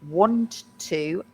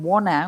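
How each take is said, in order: First: The T is pronounced and the words are separate. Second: The T is dropped and the words run together. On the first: "which is really want to" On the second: "that American wanna"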